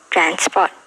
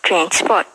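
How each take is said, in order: First: The first vowel is an 'eh' sound. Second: The first vowel is an 'uh' sound. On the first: "We use the eh sound in R P English" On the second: "in New Zealand English, we use the uh sound"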